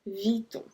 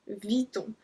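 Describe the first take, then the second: The two takes are said the same way.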